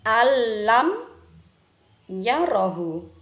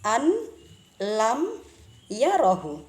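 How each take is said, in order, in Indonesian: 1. Bunyi n melebur menjadi bunyi l yang bertasydid. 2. Bunyi n diucapkan jelas sebelum l. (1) "cara membacanya adalah alam yarohu" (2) "Contoh suara awal sebelum kita menghukumi sebagai idgham bila gunnah"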